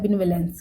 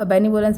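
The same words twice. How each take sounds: First: बेनिवोलेंस said with v and e, bin-ve-lens; correct pronunciation. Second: बेनिवोलेंस said with b and o, bay-nee-bo-lens; common pronunciation. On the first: Teacher correcting the students' common pronunciation. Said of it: "लेकिन ये होता है बेनिवोलेंस". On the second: Teacher showing students the common form, plain. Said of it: "वैसे इसको लोग बेनिवोलेंस pronounce करते हैं". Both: Shown as a demonstration.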